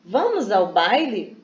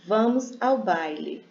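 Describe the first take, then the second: First: Slow, lilting question on "Vamos ao baile"; questioning tune. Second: Said in the usual way. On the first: Shown as a demonstration. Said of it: "Cinderela pergunta". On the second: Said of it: "Uma das irmãs responde para a Cinderela".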